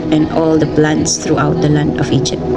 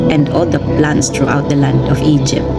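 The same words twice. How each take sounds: The two takes are said the same way.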